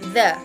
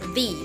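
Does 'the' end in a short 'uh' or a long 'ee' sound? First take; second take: short uh; long ee. First: It is said the way used before consonants. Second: It is said the way used before vowels. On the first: The next word starts with a consonant sound. "read when the noun that follows it has a consonant sound at the beginning" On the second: The next word starts with a vowel sound. "read when the noun that follows it has a vowel sound at the beginning"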